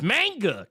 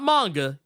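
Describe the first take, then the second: First: It is said with a Memphis 'Maine'-like vowel. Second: It is said with a standard first vowel.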